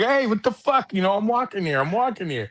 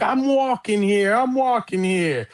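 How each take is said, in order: First: Much higher mock yell at the car; Dustin Hoffman yelling. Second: Imitating Dustin Hoffman, higher and slow; mock New York shout at the taxi. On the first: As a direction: yell it like he was really hit. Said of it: "A fucking real thing hit him and he was like". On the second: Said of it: "as he's walking down the street and the taxi cab comes and hits him".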